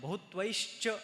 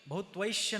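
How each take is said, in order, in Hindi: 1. यह शब्द 'shcha' ध्वनि से समाप्त होता है। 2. यह शब्द 'shya' ध्वनि से समाप्त होता है। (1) "श और च" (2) "बहुत्वैश्य नहीं बोलना"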